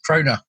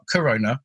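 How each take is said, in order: First: The first two syllables are merged into one. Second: All three syllables are clearly pronounced. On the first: The speaker calls it right. "In East Anglia, we put the syllables together, so it's Krona" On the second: The speaker calls it wrong. "No, not Corona. That's three syllables"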